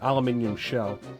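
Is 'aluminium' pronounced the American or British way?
British. The word is said the British way.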